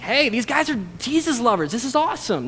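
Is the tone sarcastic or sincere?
sincere. It is said sincerely and enthusiastically.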